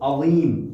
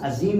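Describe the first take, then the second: First: The middle consonant is full and heavy. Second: The middle consonant is light and plain. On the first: The speaker calls it right. "पूरा पढ़ना है" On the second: The speaker calls it wrong. "अजीम नहीं है"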